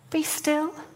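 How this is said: It is said as a gentle request.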